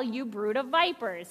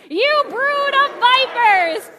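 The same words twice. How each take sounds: First: Said in the usual way. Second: Slow, loud, higher yell of brood of vipers; group yell. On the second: Shown as a demonstration. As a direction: yell it with the whole congregation. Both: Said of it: "we're all gonna yell".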